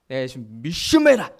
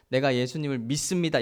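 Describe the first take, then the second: First: It is said forcefully, with strong emphasis. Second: It is said in a calm, ordinary voice.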